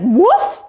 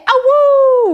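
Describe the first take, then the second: First: Wolf voice. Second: High, loud wolf howl. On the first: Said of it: "Ragnaros has just said". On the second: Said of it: "John Burkett". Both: Pretend.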